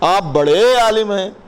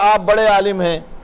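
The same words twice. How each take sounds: First: It is drawn out in a mocking tone. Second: It is said in a plain, admiring tone. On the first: The person is being ridiculed. "जरा खींच दें ... एक तज़हीक है" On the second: The person is sincerely praised. "तो ये हुई तारीफ"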